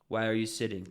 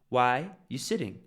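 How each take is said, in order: First: The word 'are' is clearly pronounced. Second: The word 'are' is dropped entirely.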